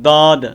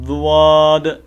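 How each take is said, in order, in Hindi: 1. इसकी शुरुआत हल्की सादी d आवाज़ से होती है। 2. इसकी शुरुआत z जैसी आवाज़ और w की ग्लाइड से होती है। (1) "दाल के मुशाबे करते हैं, तो वो दाल भी नहीं पढ़नी" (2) "जुआद नहीं पढ़ना"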